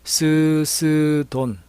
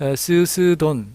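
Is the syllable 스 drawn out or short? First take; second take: drawn out; short. First: The syllable 스 is drawn out long. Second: The syllable 스 is said short. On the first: The speaker calls it right. "스를 길게 읽도록 연습을 해야 됩니다" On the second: The speaker calls it wrong. "그렇지 않으면 스스돈 이렇게 하면은 ... 장단점의 비율이 맞지 않게 됩니다"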